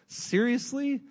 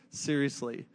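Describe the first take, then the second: First: High, rising disbelief on Seriously?; incredulous seriously. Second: Deadpan answer. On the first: Preacher to congregation about stolen baby Jesus, incredulous. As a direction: ask Seriously? as if you can't believe it. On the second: Answers own question, deadpan. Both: Acted.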